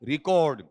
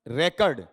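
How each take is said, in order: First: It is said with the verb pronunciation. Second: It is said with the noun pronunciation. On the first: The word is used as a verb. "और verb में है तो इसका उच्चारण" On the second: The word is used as a noun. "अगर noun में है तो इसका उच्चारण"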